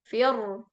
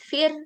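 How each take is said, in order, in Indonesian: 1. Huruf r diucapkan berat dan tebal. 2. Huruf r diucapkan ringan dan tipis. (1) "Jadi ro-nya ikut tebal juga" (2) "Harusnya tipis"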